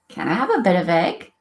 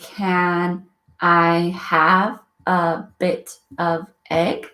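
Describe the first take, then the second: First: The words run together, linked into one stream. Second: Each word is said separately and distinctly. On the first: A native speaker says it. "A native speaker would say, ... they are linking words together" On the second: A non-native speaker says it. "a non-native speaker would say"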